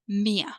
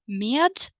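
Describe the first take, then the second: First: The final D sound is dropped. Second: The final D sound is pronounced. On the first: "when we omit the consonant D, sounds more natural for me" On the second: "You might pronounce the consonant D"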